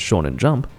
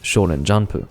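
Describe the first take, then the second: First: Jump ends on the p consonant sound. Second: Jump ends with an added u vowel. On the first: The speaker calls it wrong. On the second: The speaker calls it right.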